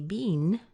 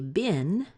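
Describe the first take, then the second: First: The vowel is a long ee sound. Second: The vowel is a short i sound. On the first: "sounds a lot like a bean" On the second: "with a short I"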